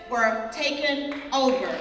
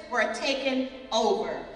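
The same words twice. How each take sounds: The two takes are said the same way.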